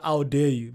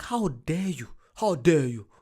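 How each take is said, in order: First: Hammed-up how dare you, louder; dramatic mock offence; mock outrage. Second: Hammed-up how dare you; dramatic mock offence; mock outrage. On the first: Shown as a demonstration. Showing the line that makes his girlfriend laugh. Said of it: "When I, when I do that". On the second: Retelling his outrage at the costly drink. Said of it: "I'm like".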